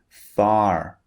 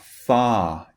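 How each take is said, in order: First: It has an American accent with pronounced final R. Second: It has a British accent with silent final R.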